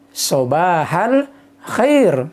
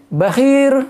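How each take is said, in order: First: "Sobahal khair" very slow, each syllable drawn out; slow Fusha demo. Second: "bakhir" higher and louder, one quick word; Tunisian greeting. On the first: Teacher models the formal morning greeting, very slow. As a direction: stretch out "Sobahal khair" with a rasping kh. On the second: Teacher recalls a Tunisian morning greeting, higher and louder. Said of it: "cuma disingkat bakhir". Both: Shown as a demonstration.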